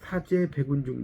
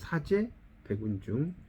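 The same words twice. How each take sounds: First: It is read without a break after two syllables. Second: It is read with a break after two syllables.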